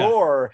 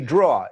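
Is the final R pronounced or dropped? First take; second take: pronounced; dropped. First: The final R is pronounced. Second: The final R is dropped, Long Island style.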